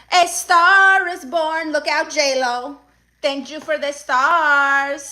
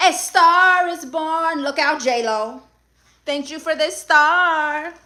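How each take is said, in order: First: Crown yourself like a diva on stage; dramatic star announcement. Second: Dramatic star announcement. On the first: Streamer repeats star celebration. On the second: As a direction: announce it like a red-carpet debut. Streamer celebrates a gifted star. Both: Acted.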